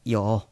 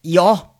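First: It is said quietly and softly. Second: It is said loudly and firmly.

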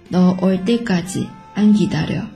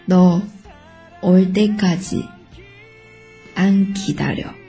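First: It is spoken at a normal, faster pace. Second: It is spoken slowly and carefully. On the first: "正常速度" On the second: "那我们慢速再跟读一遍。"

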